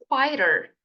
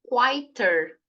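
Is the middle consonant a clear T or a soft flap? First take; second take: soft flap; clear T. First: The middle consonant is a soft R-like flap. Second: The middle consonant is a clear T sound. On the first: The speaker calls it right. "essa letra T vai ficar com som de R. Então é melhor você falar quieter" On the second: The speaker calls it wrong. "Quieter ou quieter"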